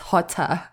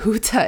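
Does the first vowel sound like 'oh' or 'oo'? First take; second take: oh; oo. First: The first vowel sounds like 'oh'. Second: The first vowel sounds like 'oo'. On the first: The speaker calls it right. "it's Hota" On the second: The speaker calls it wrong. "it's not Huta"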